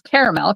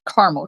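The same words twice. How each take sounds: First: The word is said fully, as spelled. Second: The word is said in a shortened form. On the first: This follows the spelling literally. "he says caramel because that's how it's spelled" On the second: This is how the speaker grew up saying it. "I grew up calling it caramel corn"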